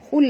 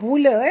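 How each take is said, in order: First: The word ends cleanly on the l. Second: An extra vowel is added after the l. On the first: The speaker calls it right. "hul aja" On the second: The speaker calls it wrong. "tak mau baca hula"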